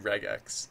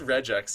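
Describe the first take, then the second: First: The g sounds like the g in 'regular'. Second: The g does not sound like in 'regular'. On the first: "it should be regex because it stands for regular expression" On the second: "I like people who pronounce it regex"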